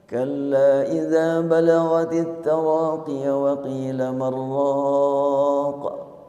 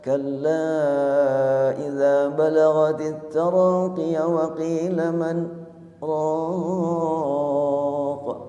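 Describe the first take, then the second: First: The long vowel before the glottal stop is held two counts. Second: The long vowel before the glottal stop is held four counts. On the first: "Bila dibaca dua" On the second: "Kalau dibaca empat"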